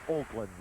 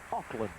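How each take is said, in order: First: The first syllable sounds like 'oak'. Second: The first syllable sounds like 'awk'. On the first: Most of the population says it this way. "comme si c'était O A K au lieu de A U C K" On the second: Snobbish people say it this way. "ce sont plutôt les snobs qui disent Auckland"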